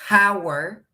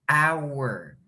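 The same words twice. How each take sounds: First: The word starts with an audible h sound. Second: The word starts with a vowel, no h sound. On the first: The speaker calls it wrong. "No estoy diciendo hour" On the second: The speaker calls it right. "estoy diciendo hour. ... no se escucha la h"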